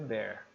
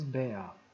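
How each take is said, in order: First: It is said in an American accent. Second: It is said in a British accent. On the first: "a forma como o americano diz é bear" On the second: "mas o britânico ele diz bear"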